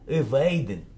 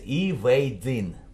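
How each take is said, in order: First: The word is said weakly, in an unstressed form. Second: The word is said fully, as on its own. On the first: "То есть безударная форма evading" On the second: "А отдельно считается evading"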